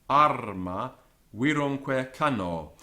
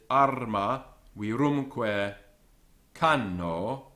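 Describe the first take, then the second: First: Virumque is stressed on its first syllable. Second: Virumque is stressed on its second syllable. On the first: The speaker calls it right. "the natural word stress, is on the first syllable of virumque" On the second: The speaker calls it wrong. "it sounds unnatural and forced"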